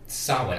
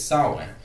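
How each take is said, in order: First: The name is pronounced just as it is spelled. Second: The name is not pronounced as it is spelled. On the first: The speaker calls it wrong. "I keep trying to pronounce it phonetically" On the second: The speaker calls it right. "but it's Samhain"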